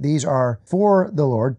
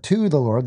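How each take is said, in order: First: Emphatic weight on "for"; stress on FOR. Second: Emphatic weight on "to"; stress on TO. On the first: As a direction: make "for" the key word. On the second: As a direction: make "to" the key word. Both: Real, not acted. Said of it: "the Bible is very emphatic".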